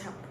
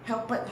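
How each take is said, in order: First: The ending is a single sound. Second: The ending is an extra syllable. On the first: The speaker calls it right. "It's not helped. It's just help" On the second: The speaker calls it wrong. "I have heard huh?"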